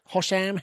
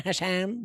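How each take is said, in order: First: Hosham, open "ho" like hot, stress first syllable. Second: Hasham, flat "ha" like hat, ending in a rising tune. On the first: Unsure of a player's name, tries the "Hosham" take. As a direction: try the name with an aw sound. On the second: Unsure of a player's name, tries the "Hasham" take, rising. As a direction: try the name with the a sound, as a question. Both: Shown as a demonstration. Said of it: "one of the two".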